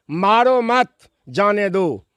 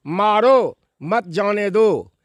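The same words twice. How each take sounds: First: "मारो मत" joined, pause, then "जाने दो"; pause after मत. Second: "मारो", pause, then "मत जाने दो" as one phrase; pause after मारो. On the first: Guest showing a sentence's two meanings, pause after मत. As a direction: break after मत, setting जाने दो apart. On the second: Guest showing a sentence's two meanings, pause after मारो. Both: Shown as a demonstration. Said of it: "इसका दो अर्थ हो".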